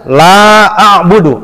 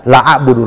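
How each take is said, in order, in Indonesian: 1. Vokal dalam 'la' panjang. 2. Vokal dalam 'la' pendek. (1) "la itu harus panjang" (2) "Masa dia baca la a'budu"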